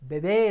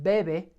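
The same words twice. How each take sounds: First: The stress is on the last syllable. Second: The stress is on the first syllable. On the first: It means a baby. "Bebe is a baby" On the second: It means he or she drinks. "We're putting stress here"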